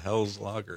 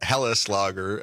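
First: The first word is said the plain English way. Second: The first word is said the German way.

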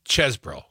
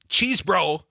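First: The first syllable has a short 'e' vowel. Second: The first syllable has a long 'ee' vowel. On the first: The speaker calls it right. "the E, ease, is like dessert" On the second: The speaker calls it wrong. "It's not cheese bro"

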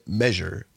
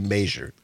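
First: It is said in the common standard way. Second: It is said in a local regional way. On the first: This is how most people say it. "most people say measure" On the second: This is how the hometown says it. "at Richland Center we say measure"

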